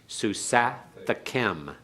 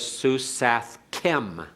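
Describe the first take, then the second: First: A short a vowel is heard between th and k. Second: No vowel is heard between th and k. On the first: The speaker calls it right. "It has to be Susathakem" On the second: The speaker calls it wrong. "notice that's wrong because we don't have a dogish in the kaf"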